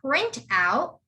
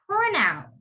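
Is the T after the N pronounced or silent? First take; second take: pronounced; silent. First: The T after the N is clearly pronounced. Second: The T after the N is left silent. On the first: The speaker calls it wrong. "You don't say print out" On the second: The speaker calls it right. "You would say print out"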